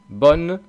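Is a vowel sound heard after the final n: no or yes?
No. It ends on the n with no vowel. This is how it sounds in the north. "En el norte a lo mejor pronuncian bon"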